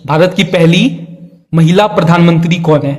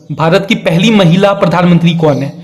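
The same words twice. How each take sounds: The two takes are said the same way.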